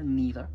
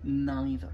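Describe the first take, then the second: First: The first vowel is a long 'ee' sound. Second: The first vowel is an 'eye' diphthong. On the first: "c'est un i long" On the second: "là tu as une diphtongue avec deux sons"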